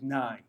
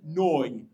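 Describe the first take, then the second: First: The vowel sounds like 'eye'. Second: The vowel sounds like 'oy'. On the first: It rhymes with the other line. The speaker calls it right. "it's Emunai" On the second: It would not rhyme with the other line. The speaker calls it wrong. "How can Noi rhyme with Nai?"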